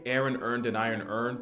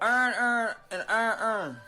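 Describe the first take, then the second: First: It is said in a general American accent. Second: It is said in a Baltimore accent.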